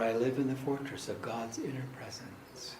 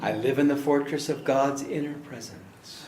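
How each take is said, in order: First: It is spoken a little quieter. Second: It is spoken at normal volume.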